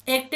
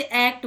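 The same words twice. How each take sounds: First: एक्ट with a long closed "ay", like "ache-t"; spelling pronunciation. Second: एक्ट with an open "ae", as in "cat"; English pronunciation. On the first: Teacher showing learners what not to say, closed "ay" in एक्ट. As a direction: say एक्ट with the letter-name A. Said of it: "एक्ट नहीं बोलते इसे". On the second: Teacher showing learners the spoken form, open "ae" in एक्ट. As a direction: open the first vowel of एक्ट to "act". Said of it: "लेकिन इसे एक्ट बोलते हैं". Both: Shown as a demonstration.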